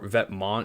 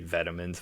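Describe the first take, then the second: First: It sounds like 'vet-mon' with no final s. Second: It sounds like the English word 'vitamins'. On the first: The speaker calls it right. "is like the proper way to say it" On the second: The speaker calls it wrong. "some like Americans say vitamins, which I don't think is right"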